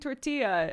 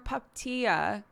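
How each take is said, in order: First: The word begins with a t sound. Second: The word begins with a p sound. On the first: "she's saying tortilla" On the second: "she always turns the first T in tortilla into a P"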